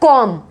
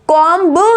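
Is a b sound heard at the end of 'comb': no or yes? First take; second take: no; yes. First: No b sound is pronounced at the end. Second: A b sound is pronounced at the end. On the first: The speaker calls it right. "बी इसमें silent है, इसको बोला जाएगा कॉम्ब" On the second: The speaker calls it wrong. "कॉम्ब नहीं आवाज आती है"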